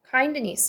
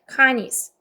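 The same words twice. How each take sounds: First: The d sound is clearly pronounced. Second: The d sound is left out. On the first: The speaker calls it wrong. "이게 아니고" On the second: The speaker calls it right. "D 발음 빼세요"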